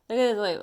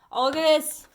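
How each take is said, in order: First: Said in the usual way. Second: Sudden delighted discovery; light up at what you see; surprised. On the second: Real, not acted. Surprised by a card.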